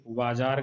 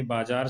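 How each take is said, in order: First: बाजार said with a v sound, vaajaar; बाजार starting with v instead of b; the common wrong बाजार; wrong pronunciation. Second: बाजार said with a b sound, baajaar; बाजार starting with a clear b; the correct बाजार; correct pronunciation. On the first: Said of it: "गलत है". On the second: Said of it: "सही है". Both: Shown as a demonstration.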